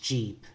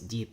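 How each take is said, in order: First: The word begins with a hard 'j' sound. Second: The word begins with a quick 'dy' glide. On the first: This is how it sounds in American English. "So jeep is what they'll say in American English" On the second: This is how it sounds in Cebuano. "But in Cebuano, it's deep"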